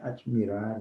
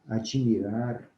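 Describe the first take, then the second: First: The two consonants join with no vowel between. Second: An extra i vowel separates the two consonants. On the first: The speaker calls it right. "o correto é admirar" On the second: The speaker calls it wrong. "Admirar, não"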